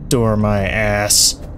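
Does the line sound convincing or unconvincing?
unconvincing. It is said in an unconvincing way.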